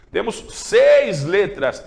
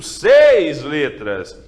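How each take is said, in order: First: Seis held long in Temos seis letras; slow stress on seis. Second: Seis stretched slow and loud; stress on seis. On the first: Teacher repeating the count, slow emphasis on seis. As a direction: draw out seis calmly. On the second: Teacher counting letters, stressing seis slowly. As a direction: lean on seis, draw it out. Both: Shown as a demonstration.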